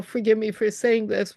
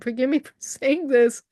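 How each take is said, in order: First: Said in the usual way. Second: A laugh breaking into "Forgive me for saying this"; amused retold apology; laughing through it. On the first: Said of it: "which Spirit didn't really tell me to say". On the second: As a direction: giggle as you repeat the apology. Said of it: "but I said".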